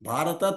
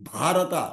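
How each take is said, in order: First: The first consonant is said without a breath. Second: The first consonant is said with a breath. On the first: The speaker calls it wrong. "భారత తప్పు" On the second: The speaker calls it right. "భా అంటేనే ప్రకాశం"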